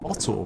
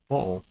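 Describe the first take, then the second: First: The middle T is clearly pronounced. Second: A glottal catch replaces the middle T.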